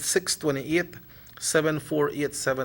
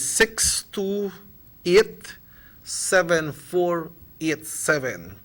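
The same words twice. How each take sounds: First: The number is read quickly. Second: The number is read slowly. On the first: The speaker calls it wrong. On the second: The speaker calls it right.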